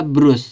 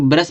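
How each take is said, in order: First: ब्रश said as "broos", with a u vowel; spelling-based pronunciation. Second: ब्रश said as "ba-ras", with a short a vowel; taught pronunciation. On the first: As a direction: read ब्रश as spelt, "brus". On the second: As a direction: read ब्रश with short neutral vowels, "buh-rus". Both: Shown as a demonstration. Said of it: "इसको ब्रश पढ़ते हैं".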